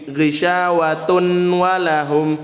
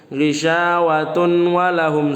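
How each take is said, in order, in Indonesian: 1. Bunyi n dibaca jelas sebelum w. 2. Bunyi n dibaca jelas sebelum w.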